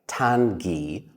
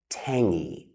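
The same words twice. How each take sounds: First: The word is said without an ng sound. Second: The word is said with an ng sound. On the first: The speaker calls it wrong. "It looks like tangy, but we don't say that" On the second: The speaker calls it right. "it makes the sound ng"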